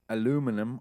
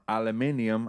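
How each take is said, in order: First: It is said with four syllables, American style. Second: It is said with five syllables, European style.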